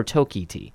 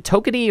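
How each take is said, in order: First: Tokiti with a full "kee" in the middle; Tokiti as toh-KEE-tee. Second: Tokiti stressed on the first syllable, weak middle vowel; Tokiti as TOH-kuh-tee. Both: Shown as a demonstration. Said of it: "is it Tokiti or Tokiti?".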